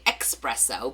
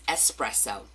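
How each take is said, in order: First: It is said with a 'ks' sound. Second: It is said without a 'ks' sound. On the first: "I like to say espresso because I'm a Jersey girl" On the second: "I know there's no X, it's espresso"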